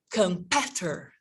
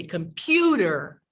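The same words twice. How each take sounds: First: "competitor" with a short, clipped "peh" for the stressed vowel; wrong vowel demo. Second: "computer" with a full, long "YOU" in the middle; com-PYOO-ter, stressed vowel said in full in "computer". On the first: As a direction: say "competitor" as com-PET-er, no "you" sound. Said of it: "So I don't say". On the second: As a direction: stretch the PYU of "computer". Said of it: "I say computer". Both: Shown as a demonstration.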